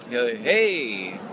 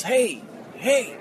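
First: Retold uncertain greeting; hesitant reply. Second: Imitated yell. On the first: He answers a stranger yelling at him, hesitant reply. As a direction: answer the call warily, drawing out hey. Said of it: "And I'm like". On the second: A stranger yells across the hotel bar, mild mock yell. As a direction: call out like a heckler, held back. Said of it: "someone yells".

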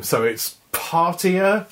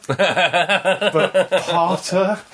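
First: "partier" as in party, slow. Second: "parter" with a plain -ter ending, drawn out; parter said short. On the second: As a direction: say "parter" like martyr with a P. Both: Shown as a demonstration. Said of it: "but with a P instead of an M".

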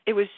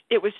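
No difference in how they are said.

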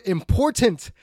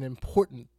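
First: "important" punched much louder; stress on important. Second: Said in the usual way. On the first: Real, not acted. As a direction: hit the word "important" hard. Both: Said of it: "And I stress the word important".

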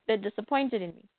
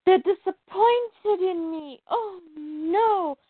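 First: Said in the usual way. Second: Higher, slow, hammed-up tearful whimper; mock whimper. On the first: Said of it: "that was in her head". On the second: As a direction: fake crying over her parents' disappointment. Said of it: "So then she's like".

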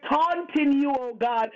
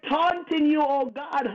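Both takes have the same delivery.

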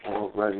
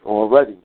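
First: Soft repeat. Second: Emphatic already. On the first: Repeating it softly. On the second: Agreeing with chat, emphatic. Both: Real, not acted.

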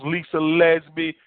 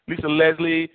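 First: "Leslie" slipped as "Lezbie"; fumbled "Leslie" before correcting; name slip. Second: Said in the usual way. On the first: Real, not acted. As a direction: says "Leslie" with a b sound, "Lez-bee".

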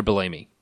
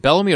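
First: Bellamy said as buh-LAY-mee; stress on second syllable. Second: Bellamy with stress on BELL; stress on first syllable. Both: Shown as a demonstration. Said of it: "Is it Bellamy or Bellamy".

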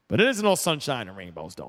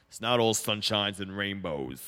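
First: Said in the usual way. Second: Low, slow, badly done tough boxer voice; terrible Rocky imitation. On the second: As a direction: drop the voice low and drag out a clumsy boxer impression. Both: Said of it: "That was a terrible Rocky imitation".

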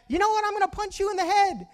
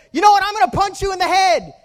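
First: High, held-back mimicked yell; echo heard back. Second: High, loud acted threat shout; high-pitched angry holler; very upset boy. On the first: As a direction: throw the threat back like an echo. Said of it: "then he heard back". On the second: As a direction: yell it at full volume like a furious kid. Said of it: "he gets very upset".

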